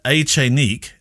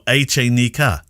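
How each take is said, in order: First: The name is said with a French pronunciation. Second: The name is said with a Spanish pronunciation. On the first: "There's a French and a Spanish pronunciation of this" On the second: "the K would be the Spanish pronunciation"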